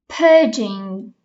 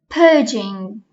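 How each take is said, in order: The two takes are said the same way.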